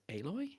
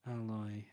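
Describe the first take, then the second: First: Aloy opening like the word 'ale'; AY-loy for Aloy, rising at the end; Aloy with long A. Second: Aloy opening on a short 'al' sound. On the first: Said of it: "it might be pronounced Aloy". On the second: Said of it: "I think it might be pronounced". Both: Shown as a demonstration.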